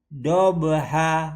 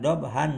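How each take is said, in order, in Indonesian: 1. Kata "dobha" berakhir dengan vokal biasa. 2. Kata "dobha" berakhir dengan bunyi n. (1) "Jadi dobha" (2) "bukan dobhan"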